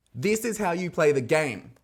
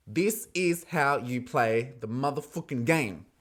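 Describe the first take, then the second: First: High, loud, excited declaration; emphatic exclamation. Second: Slow, weighty declaration; slow emphatic repeat. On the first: Host hailing a sly point swap, high loud proclamation. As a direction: proclaim it loudly, pitched up. Host cheers the gameplay, then repeats. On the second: Host repeating praise of the gameplay, slow and emphatic. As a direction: spell it out slowly, word by word. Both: Real, not acted.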